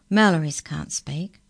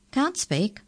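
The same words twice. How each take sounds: First: Said in the usual way. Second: Higher-pitched questioning echo; surprised echo. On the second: A narrator's reading. Incisor echoes Murray in surprise.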